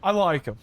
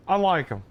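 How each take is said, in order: Both takes have the same delivery.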